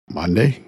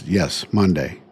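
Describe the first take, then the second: First: Rising, disbelieving Monday?; Monday? asked back in mild retold shock; surprised question. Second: Monday said with a flat, falling finality; doctor's matter-of-fact Monday, lightly voiced; firm confirmation. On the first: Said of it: "And I'm like". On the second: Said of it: "He goes".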